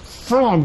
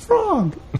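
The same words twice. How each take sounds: First: An adult says it in an exasperated voice. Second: It is said in a sweet toddler's voice.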